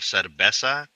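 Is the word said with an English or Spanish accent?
Spanish. It is said with a Spanish pronunciation. The speaker calls it right. "Instead of cerveza"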